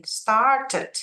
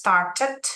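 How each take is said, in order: First: Started with "tə" ending, pitched up; Started said up high with the ED syllable; ED sounded, higher. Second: Started with a clear "təd" ending; ED sounded. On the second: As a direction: say Started in two syllables. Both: Shown as a demonstration. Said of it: "ini dibunyiin".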